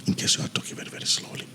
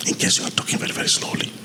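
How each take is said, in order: First: Soft whisper, barely voiced; hushed test phrase for the mic; whispered demo. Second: Soft, breathy test take; quiet phrase for the compressor; quiet demo. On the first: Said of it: "let me try and talk slowly without this one". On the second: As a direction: speak it low to test the boost. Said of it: "when you increase this one, now that slow part will come up". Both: Shown as a demonstration.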